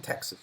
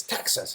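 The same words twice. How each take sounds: First: Said in the usual way. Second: "Texas" with the first vowel opened to "a"; attempted Texan pronunciation. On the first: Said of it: "the woman in the shop corrected". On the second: Visitor retelling the shop correction, imitated Texan vowel in "Texas". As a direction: try a local "TAX-sus" for "Texas". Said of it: "I can't even say it".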